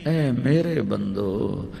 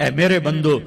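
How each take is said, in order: First: It is said in a tender, loving tone. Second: It is said in a plain, neutral tone.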